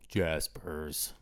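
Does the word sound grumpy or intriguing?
grumpy. Said in a flat, grumpy, unenthusiastic tone. The place does not sound appealing. The speaker calls it wrong. "you don't want to go to Jaspers when I say it like that"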